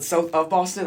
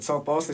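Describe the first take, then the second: First: South OF Boston, queried with OF set apart; questioning OF. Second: Said in the usual way. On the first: Retold or imitated. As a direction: repeat it back as a query, leaning on OF. Retold listener mishears South Boston.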